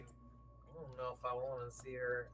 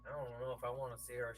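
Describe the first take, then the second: First: Slow, drawn-out imitation; imitating Maria. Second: Said in the usual way. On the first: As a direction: mimic her hesitant way of saying it. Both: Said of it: "she does that thing where she's like".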